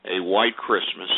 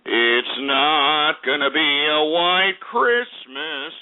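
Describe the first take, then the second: First: Said in the usual way. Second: Driving the point home to viewers, each word drawn out; slow emphatic repeat. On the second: Shown as a demonstration. Repeating the forecast slowly and emphatically. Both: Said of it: "and I repeat".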